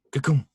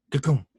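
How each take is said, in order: Both takes have the same delivery.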